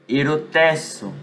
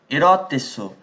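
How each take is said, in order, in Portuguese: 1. O acento cai longe da sílaba 'ro'. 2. O acento cai na sílaba 'ro'. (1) "O acento é aqui" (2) "eu tenho que parar de acentuar o O"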